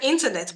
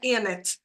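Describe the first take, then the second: First: The word is pronounced completely and fully. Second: The word is pronounced incompletely, with sounds missing. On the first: This is what the speaker intended to say. The speaker calls it right. "I thought I said internet" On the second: This is what the speaker actually heard in the recording. The speaker calls it wrong. "I'm hearing internet"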